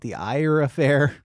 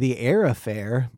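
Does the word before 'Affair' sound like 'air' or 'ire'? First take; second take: ire; air. First: The first word after 'the' sounds like 'ire'. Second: The first word after 'the' sounds like 'air'. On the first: The speaker calls it wrong. "You could call it The Ire Affair" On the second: The speaker calls it right. "I think it's what you said the first time"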